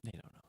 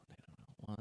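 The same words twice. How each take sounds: First: Said in the usual way. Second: Whispered secret aside. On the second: Shown as a demonstration. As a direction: breathe the words out unvoiced.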